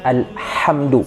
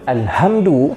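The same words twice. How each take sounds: First: The h is a deep, breathy throat sound. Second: The h is a plain, light h sound. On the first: It means praise. The speaker calls it right. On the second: It refers to something lifeless. The speaker calls it wrong. "bermaksud hamada ini adalah benda yang tidak hidup"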